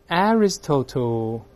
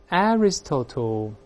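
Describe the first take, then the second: The two takes are said the same way.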